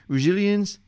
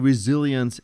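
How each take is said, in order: First: The word is slurred and poorly enunciated. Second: The word is pronounced clearly and fully. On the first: The speaker calls it wrong. "Do you hear how it kind of says resilience?" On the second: The speaker calls it right. "It doesn't say resilience and it's not well announced"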